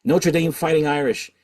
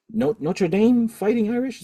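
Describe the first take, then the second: First: Notre Dame Fighting Irish stated with a falling, certain end; settled statement. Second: Rising, asking tune on Irish; unsure question. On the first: Answering his own question about the team, firm fall. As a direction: land it firmly, pitch dropping on Irish. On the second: Unsure of the team name, asking the viewers with a rise. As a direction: Notre Dame Fighting Irish asked with a lifted, doubtful rise at the end. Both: Real, not acted. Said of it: "Is that the team?".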